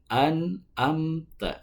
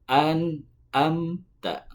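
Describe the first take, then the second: No difference in how they are said.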